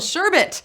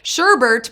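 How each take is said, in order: First: No R sound is in the second syllable. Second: An R sound is added in the second syllable. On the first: The speaker calls it right. "there's no R. It's sherbet" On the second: The speaker calls it wrong. "Sherbert is how I say it"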